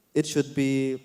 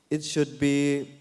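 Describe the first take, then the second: No difference in how they are said.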